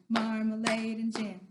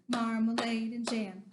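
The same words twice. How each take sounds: The two takes are said the same way.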